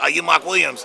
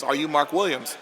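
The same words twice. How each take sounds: First: It is said in an imitated, put-on voice. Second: It is said in an ordinary, plain voice. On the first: The speaker calls it right. "It was more like" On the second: The speaker calls it wrong. "but it didn't sound like it"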